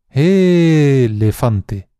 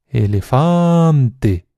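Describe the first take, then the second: First: The stress is on the first syllable. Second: The stress is on the third syllable. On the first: "alargando mucho cada una de las sílabas" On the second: "Cualquier nativo te dirá que la tercera opción"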